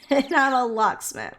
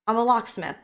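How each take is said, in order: First: Amused repeat after a laugh; laugh, then repeat the punchline. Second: Said in the usual way. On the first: Retold or imitated. Quoting the locksmith answer to both questions, laughing. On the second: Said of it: "What's your profession".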